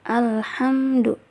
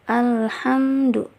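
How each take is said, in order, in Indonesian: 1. Bunyi L jelas, tetapi dibaca biasa. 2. Bunyi L jelas, tetapi dibaca biasa.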